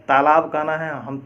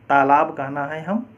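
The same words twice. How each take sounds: Both takes have the same delivery.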